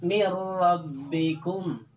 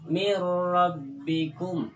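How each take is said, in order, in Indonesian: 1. Bunyi n melebur sepenuhnya ke dalam r yang mengikutinya. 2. Bunyi n melebur sepenuhnya ke dalam r yang mengikutinya.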